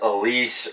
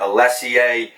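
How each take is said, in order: First: The name sounds like 'Elise'. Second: The name sounds like 'Alessie'. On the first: "as many people have mispronounced over the years and butchered as Elise" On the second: "mispronounced over the years and butchered as ... Alessie"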